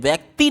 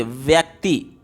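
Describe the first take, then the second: First: "व्यक्ति" with the final i stretched long as ii. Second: "व्यक्ति" with a short, light final i; "व्यक्ति" ending on a quick short i. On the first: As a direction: demo the wrong "व्यक्ति", drawing out the last vowel. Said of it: "अब आप इसको व्यक्ति नहीं बोलते हैं". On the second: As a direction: say "व्यक्ति" slowly, keeping the last i brief. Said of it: "व्यक्ति की अगर बात करें". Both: Shown as a demonstration.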